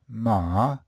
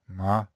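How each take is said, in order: First: The pitch falls and then rises again. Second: The pitch stays low and flat throughout. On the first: "the third tone is falling and rising" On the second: "as just low and flat"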